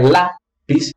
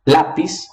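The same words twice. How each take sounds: First: Lápis split after a stressed LÁ; teacher's syllable demo of lápis, LÁ held apart from pis; stress on first syllable. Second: Said in the usual way. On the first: Shown as a demonstration. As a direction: break lápis in two, LÁ, then pis. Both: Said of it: "sílaba tônica é".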